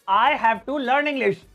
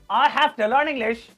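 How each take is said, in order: First: 'Have to' is said as two full words. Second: 'Have to' is blended into a short 'hafta'.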